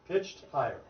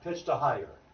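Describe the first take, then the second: First: The two words join with no extra syllable. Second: An extra syllable is inserted between the words. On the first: The speaker calls it right. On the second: The speaker calls it wrong. "it's not pitched a higher. That's not a word"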